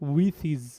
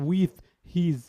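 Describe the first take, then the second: First: The two words are run together smoothly. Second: The two words are pronounced separately. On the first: The speaker calls it right. "এটা হচ্ছে উইথ হিজ" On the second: The speaker calls it wrong. "Not উইথ হিজ"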